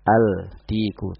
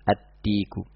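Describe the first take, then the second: First: The l is clearly pronounced before the d. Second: The l merges into the following d sound. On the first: The speaker calls it wrong. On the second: The speaker calls it right. "langsung dimasukkan pada huruf setelahnya"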